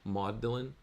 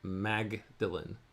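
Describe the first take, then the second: First: It is said in two syllables, like Maud-lin. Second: It is said as spelled, starting with Mag. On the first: This is how it is said at Oxford. "like the name Maud. And then Dylan" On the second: This is how the spelling suggests it is said. "although it looks like it's spelled to us"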